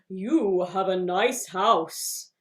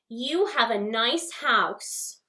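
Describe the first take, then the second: First: It is said at a low pitch. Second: It is said at a middle pitch.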